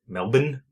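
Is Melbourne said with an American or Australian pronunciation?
Australian. The name is said with an Australian pronunciation. "I think Australians say like Melbourne"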